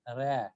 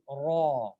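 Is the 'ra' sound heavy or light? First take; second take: light; heavy. First: The r is said light and thin. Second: The r is said heavy with a full mouth. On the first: The speaker calls it wrong. "It is not ra" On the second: The speaker calls it right. "It is ra"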